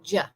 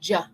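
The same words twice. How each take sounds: First: It begins with a hard J sound. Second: It begins with a hard J sound.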